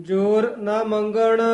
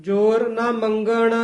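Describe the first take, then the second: No difference in how they are said.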